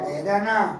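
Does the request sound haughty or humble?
haughty. It sounds like a haughty, commanding royal. The one asking expects to be given it. "कभी राजा की बेटी को"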